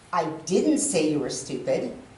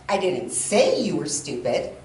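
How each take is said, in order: First: The stress is on the word 'didn't'. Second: The stress is on the word 'say'. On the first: The speaker wanted to say it but held back. "that would mean I wanted to, but I didn't" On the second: The speaker thought it but never said it. "that would mean I thought it, but the words never came out of my mouth"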